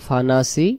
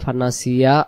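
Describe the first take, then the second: First: The word stops short on a final i. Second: The word ends with a full iya sound. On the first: The reader pauses and stops at this word. "দম ছেড়ে দেব" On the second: The reader carries on into the next words. "দমটা ধরে গেলে"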